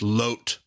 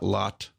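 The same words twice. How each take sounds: First: The name is said with a Hebrew pronunciation. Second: The name is said with an English pronunciation. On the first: "when you say the name in Hebrew" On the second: "not Lot"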